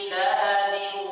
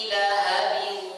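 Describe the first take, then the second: The two takes are said the same way.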